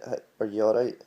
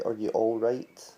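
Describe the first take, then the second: First: "all right" with the final T dropped; Scottish "are you all right?", T left off "right". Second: Said in the usual way. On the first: Shown as a demonstration. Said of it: "I'm not pronouncing that T". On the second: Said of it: "if you were gonna say".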